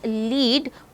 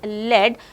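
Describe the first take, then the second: First: The vowel is long, as in seed. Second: The vowel is short, as in bed. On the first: It means to guide. "It is pronounced as lead when it means to guide" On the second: It refers to a type of metal. "it is pronounced as lead when it refers to a type of metal"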